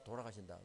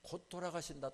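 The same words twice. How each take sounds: First: Lower, softer repeat; a hushed, sinking repeat; fading echo. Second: Said in the usual way. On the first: Retold or imitated. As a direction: let the word die away. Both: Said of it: "근데 정말".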